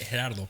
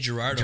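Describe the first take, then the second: First: It is said with a Mexican Spanish accent. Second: It is said with a white American accent.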